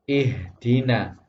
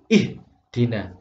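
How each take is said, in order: First: The voice flows through the h without a break. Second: The voice is cut off abruptly at the h. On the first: The speaker calls it right. "Maka ini dibaca ihdina" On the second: The speaker calls it wrong. "Tidak boleh suaranya diputus"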